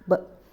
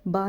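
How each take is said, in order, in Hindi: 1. b छोटा है, मुंह के अंदर ही रहता है। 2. b के बाद खुला 'a' स्वर आता है। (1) "मुंह के अंदर ही आवाज़ रहेगी" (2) "बा नहीं बोलना"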